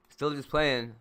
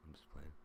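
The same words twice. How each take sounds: First: Louder and higher, teasing; loud teasing reassurance; loud high playful. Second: Said in the usual way. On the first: Real, not acted. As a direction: call it out playfully.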